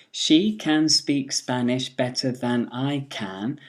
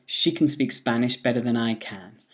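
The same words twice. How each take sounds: First: Said in the usual way. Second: "can" said as a quick schwa "kən"; weak form. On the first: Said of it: "would be". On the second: Shown as a demonstration. Teacher showing the weak "can" in a sentence. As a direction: reduce "can" to "kən" before speak. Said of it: "She can speak is the weak form".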